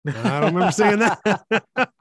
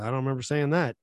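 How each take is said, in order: First: Slow, higher, louder, laughing. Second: Said in the usual way. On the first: Retold or imitated. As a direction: laugh through the disbelief. Same quote repeated with laughter.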